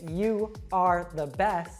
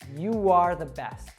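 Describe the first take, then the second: First: The words 'you' and 'are' are said separately. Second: A w sound links 'you' smoothly into 'are'. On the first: The speaker calls it wrong. "But you wouldn't say" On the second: The speaker calls it right. "You'd say"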